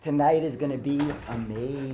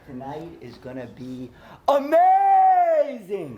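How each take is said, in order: First: It is said naturally, words not stretched. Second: It is exaggerated, with words stretched out.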